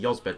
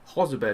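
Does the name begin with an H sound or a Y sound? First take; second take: Y sound; H sound. First: The name begins with a Y sound. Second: The name begins with an H sound. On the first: The speaker calls it wrong. "I keep forgetting, keep saying Yozbed" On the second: The speaker calls it right. "I'm pronouncing it correctly now"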